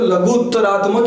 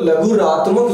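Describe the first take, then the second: First: A doubled 't' sound is heard mid-word. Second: No 't' sound is heard mid-word. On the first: The speaker calls it right. "इसको लघुत्तरात्मक ही हमेशा अपन को बोलना है" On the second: The speaker calls it wrong. "अपन को नहीं बोलना है"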